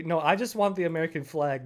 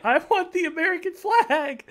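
First: Said in the usual way. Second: High, loud, drawn-out plea; slow, whining high demand; whiny demand. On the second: Real, not acted. Demanding the flag while laughing.

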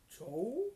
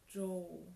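First: JOE as a loud question, sharply rising; surprised echo. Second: JOE as a short sighed statement; sighing answer. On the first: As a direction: echo Joe with the pitch shooting up. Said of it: "fragte Rabat überrascht nach". (Joe? überrascht nachgefragt) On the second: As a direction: say Joe with a sigh, not as a question. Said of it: "Ida seufzte". (Joe, seufzend geantwortet) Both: A narrator's reading.

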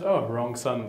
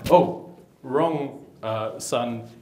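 First: Said in the usual way. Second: Mild surprise. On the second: Retold or imitated. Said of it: "the dad's like".

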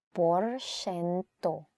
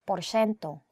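First: Porsyento stretched very slowly, every syllable held; slow careful model word; very slow teaching repeat. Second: Said in the usual way. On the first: Shown as a demonstration. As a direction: draw Porsyento out for a learner.

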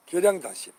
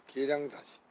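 First: 계량단심 announced loudly, higher; proud loud announcement of 계량단심. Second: Said in the usual way. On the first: Real, not acted. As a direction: call the name out high and loud. Announces name, then repeats.

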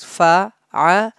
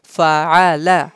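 First: Fa'ala in three separate syllables, fa, a, la; said separately. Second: Fa'ala as one joined word; said together. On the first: Teacher showing students the letters before joining them, said separately. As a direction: leave a gap after each syllable of fa'ala. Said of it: "separately with spellings". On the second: Teacher showing students how to join the letters, said together. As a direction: link fa, a, la smoothly into Fa'ala. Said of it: "We have to say them together". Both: Shown as a demonstration.

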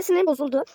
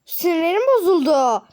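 First: Said in the usual way. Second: Loud, slow wail of frustration; nerves frayed. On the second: Pretend. Vlogger upset over jumbled suitcases, frustrated drawn-out wail. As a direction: draw it out high and loud, thoroughly fed up. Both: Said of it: "sinirlerim çok fazla bozuldu".

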